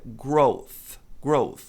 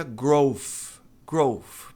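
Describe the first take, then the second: First: "growth" slowly, ending in a tongue-between-teeth TH; correct TH. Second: "growth" ending in F, like "grofe"; mispronounced "growth", final F; wrong TH. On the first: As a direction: model "growth" with a voiceless TH. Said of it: "A pronúncia correta é". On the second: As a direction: mimic the learner's "growth" with F for TH. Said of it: "muita gente pronuncia". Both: Shown as a demonstration.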